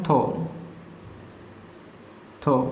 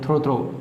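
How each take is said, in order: First: The word is said without an R sound. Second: The word is said with an R sound. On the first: The speaker calls it right. "इसमें जो आर होता है वो silent होता है ... इसको बोलेंगे हम थो थो" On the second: The speaker calls it wrong. "आप इसको थ्रो थ्रो बोलते हो"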